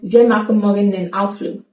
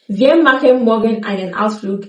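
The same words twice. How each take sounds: First: Machen and einen are shortened and linked. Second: Machen and einen are said in full.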